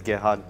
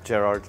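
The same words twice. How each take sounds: First: The name is said the German way. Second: The name is said the local way. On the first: "In Germany, it's Gerhard" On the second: "Over here, it's Gerhard"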